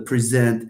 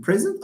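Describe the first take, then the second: First: "present" stressed on the second syllable; weight the end of "present". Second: "present" stressed on the first syllable; weight the start of "present". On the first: Teacher citing verb against noun, second-syllable stress on "present". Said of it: "stress generally falls on the second". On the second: Teacher citing noun against verb, first-syllable stress on "present". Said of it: "we cannot speak of a minimal pair". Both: Shown as a demonstration.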